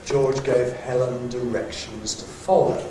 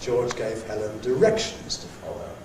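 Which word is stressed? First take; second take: follow; directions. First: The main stress falls on the word follow. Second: The main stress falls on the word directions. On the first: He told her to follow him. "That means he told her to follow" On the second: She has to follow the directions. "She's got to follow the directions"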